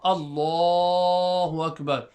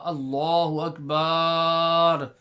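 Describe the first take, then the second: First: The l sound in Allahu is lengthened. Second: The b sound in Akbar is lengthened. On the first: The speaker calls it right. "Stretch the lam of the word Allah" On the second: The speaker calls it wrong. "Not the ba. ... Not like that"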